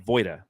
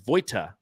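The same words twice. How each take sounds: First: The middle consonant sounds like a D. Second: The middle consonant is a clear T sound. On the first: This is how the name is actually said. The speaker calls it right. "you actually say it's Voita. It's like it sounds like it's a D" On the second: This is how the name looks when read. The speaker calls it wrong. "if you read my last name, it says Voita"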